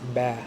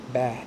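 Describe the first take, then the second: First: The vowel is front and flat, as in cat. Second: The same.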